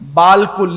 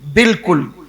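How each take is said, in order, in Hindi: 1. पहला अक्षर लंबे 'aa' से बोला जाता है। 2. पहला अक्षर छोटे 'i' से बोला जाता है। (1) "लिखने में क्या लिखते हैं?" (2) "लेकिन उसको क्या पढ़ते हैं?"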